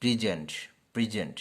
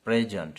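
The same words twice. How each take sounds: First: প্রেজেন্ট with প্রি, stress on the end; verb present. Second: প্রেজেন্ট with PREZ stressed first; noun present. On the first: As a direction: say প্রেজেন্ট as pri-ZENT. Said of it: "তখন হবে প্রি". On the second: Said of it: "তখন হবে প্রেজেন্ট". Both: Shown as a demonstration.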